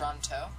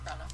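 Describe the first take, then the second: First: The T sounds are clearly pronounced. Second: The T sounds are left out. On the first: "Like it should be" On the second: "With no T's"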